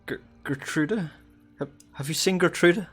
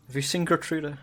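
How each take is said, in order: First: Put-on much higher, desperate mother calling for her lost child; haggard sobbing mother. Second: Higher, lightly voiced tearful mother pleading; sobbing mother. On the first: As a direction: cry out for your missing daughter, raw from weeping. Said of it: "like, very haggard". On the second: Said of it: "and she's still sobbing".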